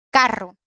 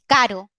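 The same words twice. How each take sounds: First: Carro with a long trilled R; carro with a clear multiple trill; rolled RR. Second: Caro with a single tapped R; caro, one light tap. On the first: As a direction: roll the RR hard in carro. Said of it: "lo único que cambia es caro, carro". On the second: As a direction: flick the R once in caro. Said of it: "Con la misma voz, el mismo acento, lo único que cambia". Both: Shown as a demonstration.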